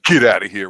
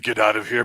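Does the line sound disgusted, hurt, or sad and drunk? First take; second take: disgusted; sad and drunk. First: It sounds disgusted. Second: It sounds like put-on sad drunkenness.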